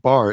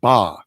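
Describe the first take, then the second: First: The final r is pronounced. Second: The final r is dropped, Boston-style.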